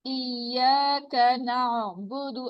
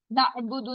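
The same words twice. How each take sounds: First: इय्याका नअबुदु with the ain flowing, unbroken; smooth ain. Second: नअबुदु with the voice cut at the ain, the wrong way; broken ain. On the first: Teacher modelling smooth recitation for students. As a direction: keep the ain in नअबुदु voiced without a break. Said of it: "आइन की आवाज को चलता रहना". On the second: Teacher showing the clipped wrong reading to the class. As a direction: chop the sound at the ain of नअबुदु. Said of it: "नहीं कहना". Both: Shown as a demonstration.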